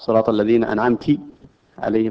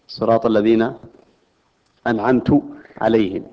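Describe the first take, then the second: First: The t in anamt is followed by i. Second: The t in anamt is followed by u. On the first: A female addressee is the one who grants favor. "لأنه يحول الخطاب إلى مخاطب أنثى" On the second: The speaker is the one who grants favor. "أنه يصبح المنعم هو المتكلم القارئ"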